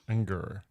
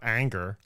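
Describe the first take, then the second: First: The first vowel sounds like the 'e' in 'bed'. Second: The first vowel sounds like the 'a' in 'anger'. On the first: The speaker calls it right. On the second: The speaker calls it wrong. "Not anger"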